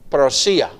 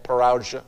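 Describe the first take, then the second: First: It is said with a Greek pronunciation. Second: It is said with an American English pronunciation.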